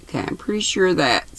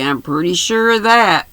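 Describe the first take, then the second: First: Drowsy, soft and hurried reread; sleepy voice, half asleep; nodding off. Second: Said in the usual way. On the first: Real, not acted. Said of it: "I keep drifting off". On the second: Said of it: "Where was I?".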